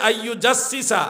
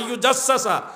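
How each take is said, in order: First: The second-to-last syllable has the vowel 'i'. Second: The second-to-last syllable has the vowel 'a'. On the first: The speaker calls it wrong. "উনি বলেছে" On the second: The speaker calls it right. "অথচ শব্দটা হলো"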